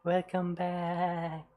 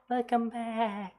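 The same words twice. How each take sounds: First: It is said in a plain, lower voice. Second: It is said with high, heady resonance. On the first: The speaker calls it wrong. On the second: The speaker calls it right.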